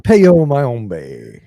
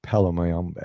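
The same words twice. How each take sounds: First: "Peo Mayambe" with an e sound in Peo and a in Mayambe, mimicking the slip; mispronounced. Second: "Palo Mayombe" said properly, Pa-lo then Ma-yom-be, a touch quieter; correct pronunciation. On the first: Teasing the co-host by repeating her wrong "Peo Mayambe". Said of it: "You added the Spanish version or something". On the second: Shown as a demonstration. Correcting the co-host on "Palo Mayombe", said properly. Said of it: "Did I say it wrong?".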